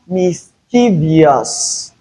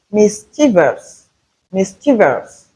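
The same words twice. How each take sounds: First: Mischievous drawn out, ending "vi-ous"; mispronounced mischievous. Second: Mischievous ending in "vus", three syllables; correct pronunciation of mischievous. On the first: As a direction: slowly add an extra syllable, mis-chee-VEE-us, in mischievous. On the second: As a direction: say mischievous as MIS-chi-vus. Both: Shown as a demonstration. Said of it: "Not mischievous".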